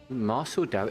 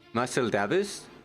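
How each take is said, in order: First: The name ends with a k sound. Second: The name ends with an s sound. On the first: The speaker calls it wrong. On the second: The speaker calls it right.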